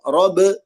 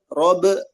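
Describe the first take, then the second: Both takes have the same delivery.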